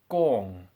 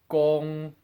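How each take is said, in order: First: The pitch falls from high to lower. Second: The pitch stays high and level. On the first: "then as a double one tone" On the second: "first as a one tone"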